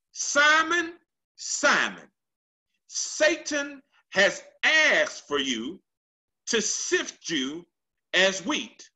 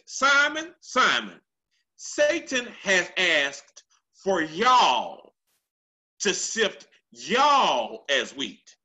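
First: The singular "you" version, unstressed. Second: Slow preacher's call leaning on "y'all"; plural y'all. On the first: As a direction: read it as "asked for you", one person only. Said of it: "He uses a singular". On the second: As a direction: hit "y'all" hard so the whole crowd hears it. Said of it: "and a plural". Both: Shown as a demonstration.

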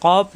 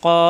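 First: Said in the usual way. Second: "কফ" drawn out very long; four-alif stretch. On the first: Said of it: "কফ জিহ্বার গোড়া থেকে". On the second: Shown as a demonstration. Teacher demonstrates four-alif length, very long stretch. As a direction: hold the vowel of "কফ" steadily. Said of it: "চারালিপ পরিমাণ টান হবে".

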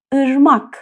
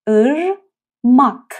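First: ارماک with the nasal ı sound first; Turkish word ırmak. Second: ارماک stretched very slowly, each syllable apart; slow syllable demo. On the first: (ارماک با ای تو دماغی) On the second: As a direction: drag out ارماک slowly for learners. (ارماک آهسته و کشیده) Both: Shown as a demonstration. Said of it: "از طریق بینی تلفظ بشه".

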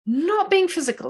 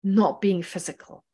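First: "Not being physical" pitched much higher, falling off "being"; emphasis on not being physical. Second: Said in the usual way. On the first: Shown as a demonstration. Teacher underlines the key phrase for students, stressed and high. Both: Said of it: "the emphasis is on".

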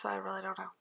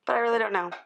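First: Soft unvoiced whisper. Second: Said in the usual way. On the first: Real, not acted. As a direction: breathe the words out, no voice. Same words said aloud at line 61.

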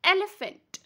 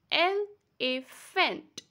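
First: Said in the usual way. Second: Elephant as three slow beats, el-e-phant; split into syllables. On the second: Shown as a demonstration. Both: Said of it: "That means there are three beats".

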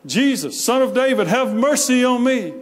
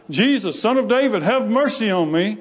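First: Much higher, insistent imitated cry; crying out louder. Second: Higher-pitched imitated plea; retold cry for help, pitched up. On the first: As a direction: call out louder, pleading to be heard. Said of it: "he cried even loud, even louder". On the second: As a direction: call out like a beggar pleading for mercy. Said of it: "he cries out".

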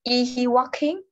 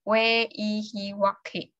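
First: Yes-no question that goes up; rising question tune. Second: Wh-question that falls; falling question tune. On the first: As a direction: voice lifts on "walking?". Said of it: "chị sẽ lên giọng". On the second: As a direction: stress "where", fall on "walking?". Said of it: "mình sẽ xuống giọng". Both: Shown as a demonstration.

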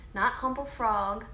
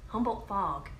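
First: Slow, Not pushed hard in "Not Humboldt Frog"; stress on not. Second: Said in the usual way. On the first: Shown as a demonstration. Correcting the viewers on the cheese name, stressing Not.

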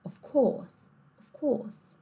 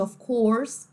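First: "of course" with closed oh, no R; British dropped R. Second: "of course" with clear R; American R. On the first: Teacher contrasting accents, R-less "of course". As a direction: say "course" as cohs. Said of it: "também não falar". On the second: Teacher contrasting accents, R-ful "of course". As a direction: sound the R in "course". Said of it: "ao invés de". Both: Shown as a demonstration.

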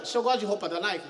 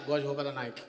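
First: Said in the usual way. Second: Low, soft flat echo; mock Ronaldinho. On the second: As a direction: answer it dull and low. Ronaldinho answering inquiry.

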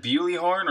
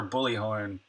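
First: "Bewley" said with a y-glide, "BYOO-lee"; BEWLEY pronunciation. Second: "Bully" with no y-glide, "BULL-ee"; BULLY pronunciation. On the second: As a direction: say Bully like the word for a tormentor. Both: Shown as a demonstration. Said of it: "Did I say it right?".

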